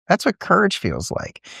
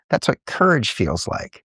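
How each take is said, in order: First: Much higher on courage, pressed; encouraging dad lifting the repeat; lifted emphatic repeat. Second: Said in the usual way. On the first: Retold or imitated. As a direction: sell the line to a scared kid. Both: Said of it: "I'm like".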